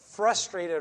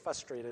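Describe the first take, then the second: First: The first R sound is clearly pronounced. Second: The first R sound is left out. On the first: The speaker calls it right. "I never say frustrated right" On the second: The speaker calls it wrong. "I usually say frustrated. I forget the whole R"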